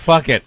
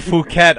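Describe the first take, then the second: First: It sounds just like 'fuck it'. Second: It does not sound like 'fuck it'. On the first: This is how the spelling suggests it. "if you ask me, that's fuck it" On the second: This is how the news says it. "They say Phuket on the news"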